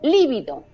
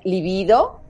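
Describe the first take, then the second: First: The stress is on the first syllable. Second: The stress is on the second syllable.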